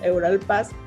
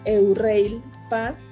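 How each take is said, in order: First: It is pronounced the way Mexicans say it. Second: It is pronounced the way Europeans say it. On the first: This is how people in Mexico say it. "que así pronunciamos nosotros aquí en México" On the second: This is how people in Europe say it. "allá lo pronuncian Eurail Pass"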